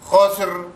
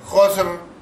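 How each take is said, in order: Both takes have the same delivery.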